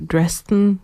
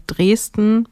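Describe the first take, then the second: First: Dresden said the English way; English pronunciation. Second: Said in the usual way. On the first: Shown as a demonstration. Radio host offers the English version of a band name, Dresden in English pronunciation. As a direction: say "Dresden" as an English speaker would. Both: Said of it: "wie man's Englisch aussprechen würde".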